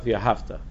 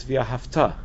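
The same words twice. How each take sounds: First: Via hafta with HAF stressed, ending dropping away; stress on the first syllable of hafta. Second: Via hafta with the final TA of hafta stressed; stress on the last syllable of hafta. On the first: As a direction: hit the earlier syllable of hafta. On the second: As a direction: land the weight on the end of hafta. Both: Shown as a demonstration. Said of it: "It's not via hafta".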